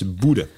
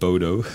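First: The name is said the local Norwegian way. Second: The name is read as it is spelled. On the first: The speaker calls it right. "de goede uitspraak is Boede" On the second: The speaker calls it wrong. "dan zeg je automatisch Bodo"

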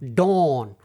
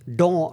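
First: It is said in a Boston accent. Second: It is said in the speaker's usual accent.

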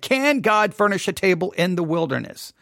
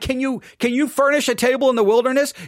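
First: It is read in a plain, neutral tone. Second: It is said in a mocking, taunting tone.

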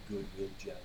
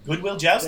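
First: It is said quietly. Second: It is said loudly and clearly.

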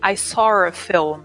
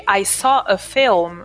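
First: A British intrusive r links saw and a. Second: It is said with no r between saw and a.

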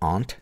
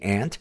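First: The word is said in a posh-sounding way. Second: The word is said in a plain, everyday way.

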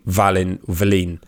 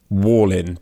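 First: The name begins with a V sound. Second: The name begins with a W sound. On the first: The name is said the way its owner says it. The speaker calls it right. "But it's actually Valin" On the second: The name is said so it rhymes with the nickname. The speaker calls it wrong. "his nickname only works if you mispronounce his surname"

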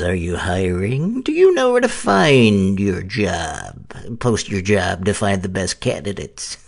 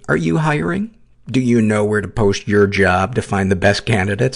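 First: It is read like a diabolical mad scientist. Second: It is read in a normal speaking voice.

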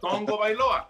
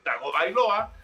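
First: The first part sounds like 'tong-go'. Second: The first part sounds like 'tah-go'. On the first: This is the corrected way of saying the name. The speaker calls it right. "ahora es Tongo Bailoa" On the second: This is the earlier way of saying the name. The speaker calls it wrong. "si de por sí nos costaba trabajo decir Tago Bailoa"

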